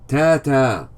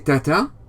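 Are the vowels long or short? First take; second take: long; short. First: Both vowels are long. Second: Both vowels are short. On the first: The speaker calls it right. "We say ta-ta" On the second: The speaker calls it wrong. "We wouldn't say tata. That's short vowels"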